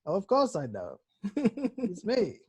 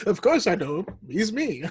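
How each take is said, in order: First: Lightly voiced Obi-Wan, rising at end; a hint of playful old Jedi. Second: Lightly voiced Obi-Wan; a touch of wise old Jedi. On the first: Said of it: "classic Obi-Wan". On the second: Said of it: "that reminds me of Obi-Wan".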